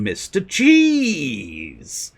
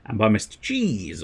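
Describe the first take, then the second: First: Excited greeting. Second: Said in the usual way. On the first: Real, not acted. Streamer greeting a viewer by name. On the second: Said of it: "of course, I mean".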